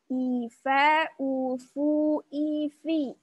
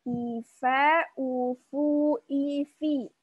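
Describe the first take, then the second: Both takes have the same delivery.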